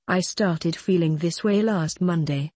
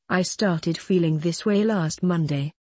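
No difference in how they are said.

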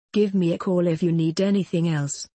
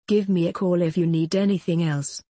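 Both takes have the same delivery.

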